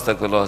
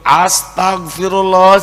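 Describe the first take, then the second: First: It sounds quick, hurried and mechanical. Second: It sounds angry and scolding.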